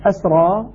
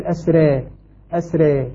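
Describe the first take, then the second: First: Said in the usual way. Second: أسرى pronounced "asré", long final e; full imala. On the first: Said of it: "وكذلك الألف التي بعدها". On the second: Shown as a demonstration. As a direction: tilt the last vowel of أسرى toward ya, thin ra. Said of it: "إمالة الألف وإمالة".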